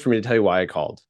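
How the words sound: The pitch falls toward the end. The caller seems authoritative. The speaker calls it right. "the downward inflection"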